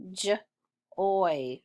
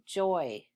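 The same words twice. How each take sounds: First: "J-oy" as a short J, then OY; sounded out. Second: Said in the usual way. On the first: Shown as a demonstration. Teacher sounding out for pupils, J, pause, oy. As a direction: split "J-oy" into its two sounds. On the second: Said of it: "Read joy".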